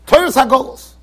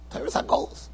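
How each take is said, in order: First: Said in the usual way. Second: Torah's Hagolos breathed in a voiceless whisper; whispered echo. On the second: Shown as a demonstration. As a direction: echo it under your breath.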